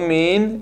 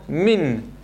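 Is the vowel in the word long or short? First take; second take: long; short. First: The vowel is drawn out long. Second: The vowel is short and joined to the n. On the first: The speaker calls it wrong. "לא מין" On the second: The speaker calls it right. "אני תוחף את החריק לנון"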